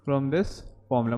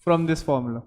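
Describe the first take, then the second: First: Slower and softer, spelled out for note-taking; slow, quiet dictated repeat; slow dictation. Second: Said in the usual way. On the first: Shown as a demonstration. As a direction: repeat it slowly so they can write it. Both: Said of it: "लिख लेना".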